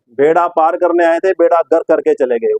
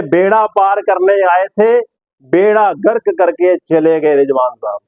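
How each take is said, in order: First: Said in the usual way. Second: Slow, declaimed two-part jibe; Sidhu. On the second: Retold or imitated. Presenter quoting Sidhu's jibe at Rizwan, slow imitation. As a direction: lift the first half slowly, let the second fall. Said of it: "अब इस पे सिद्धू साहब क्या बोलेंगे?".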